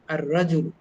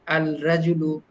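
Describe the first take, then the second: First: The L blends into a doubled r sound. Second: The L is clearly pronounced before r. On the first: The speaker calls it right. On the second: The speaker calls it wrong.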